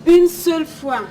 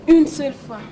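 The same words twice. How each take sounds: The two takes are said the same way.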